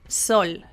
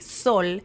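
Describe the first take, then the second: First: The S has more air flowing through it. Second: The S is short with little airflow. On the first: "you let the air flow more in Spain" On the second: "in Mexico I would say sol"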